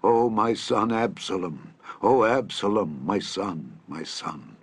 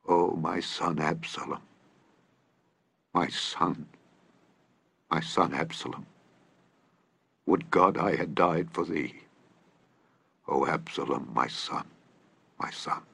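First: A mild mock wail of mourning; slow grieving cry for his son; crying out in grief. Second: Broken king mourning his son, dying away; weeping lament. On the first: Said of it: "the king cried with a loud voice". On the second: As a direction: grieve it out, fading to a whispered sob. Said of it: "and wept". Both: A narrator's reading.

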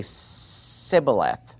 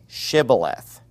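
First: Sibboleth with s instead of sh; sibboleth, an s in place of sh; s for sh demo. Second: Shibboleth with a clear sh; shibboleth, sh clearly sounded; sh sound demo. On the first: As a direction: say sibboleth, s not sh. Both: Shown as a demonstration. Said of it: "Who would say sibboleth".

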